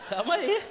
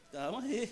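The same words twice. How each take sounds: First: High, louder yelp of calma; a sudden jump in pitch; high startled cry of calma aí. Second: Said in the usual way. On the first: Real, not acted. Reacting to being hit.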